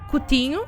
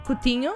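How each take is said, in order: No difference in how they are said.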